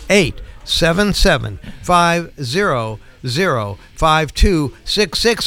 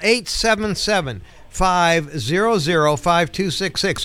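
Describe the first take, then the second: First: The number is said slowly and deliberately. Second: The number is said at normal, quicker speed.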